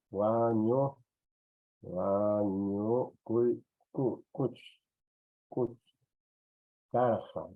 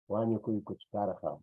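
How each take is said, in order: First: "wa ñukuy kuch karqa" broken up with long pauses; slow, halting sound-out, repeating "kuch" on its own; syllable-by-syllable dictation. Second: Said in the usual way. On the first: Shown as a demonstration. Teacher dictates word in syllables.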